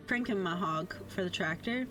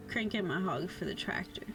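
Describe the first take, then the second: No difference in how they are said.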